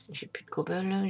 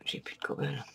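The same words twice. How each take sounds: First: Said in the usual way. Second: Whispered to himself; soft whispered lament; whispered dismay. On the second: Real, not acted. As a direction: breathe it out in dismay. Out of cobble, said twice.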